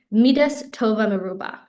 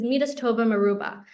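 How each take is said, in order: First: A little more deliberate on "Midas tova meruba"; slightly slower. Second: Said in the usual way. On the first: Shown as a demonstration. Teacher repeating a powerful quote for listeners, a little slower. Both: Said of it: "say it a little bit slower".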